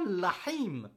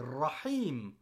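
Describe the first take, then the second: First: The word begins with an L sound. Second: The word begins with a rolled R sound. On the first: The speaker calls it wrong. "C'est pas Lahim" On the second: The speaker calls it right. "c'est Rahim"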